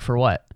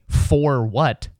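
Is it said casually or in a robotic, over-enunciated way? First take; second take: casually; robotic. First: It is said casually, with relaxed reduced sounds. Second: It is said robotically, with every sound enunciated.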